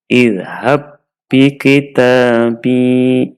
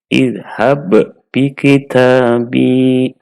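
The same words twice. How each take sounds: First: The first b merges into a doubled second b. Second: The first b is released separately with a bounce. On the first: The speaker calls it right. "huruf yang pertama dimasukkan ke huruf yang kedua dan huruf yang kedua dibaca dengan tasydid" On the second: The speaker calls it wrong. "jangan sampai kita membacanya ... sehingga muncul kol-kolahnya"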